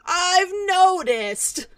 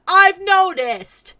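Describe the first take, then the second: First: Slow, quieter I've noticed; drawn-out sarcasm again softer. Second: Slow, loud, higher I've noticed; drawn-out sarcasm. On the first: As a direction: drag it out, deflated. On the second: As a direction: stretch it out dryly. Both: Acted.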